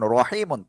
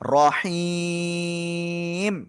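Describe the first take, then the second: First: The word ends with an added -un sound. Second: The word ends on m after a long vowel. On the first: The reading continues without stopping. "মিম দুই পেশ মন রহিমন" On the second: The reader stops at this word. "থেমে পড়লে কি হবে?"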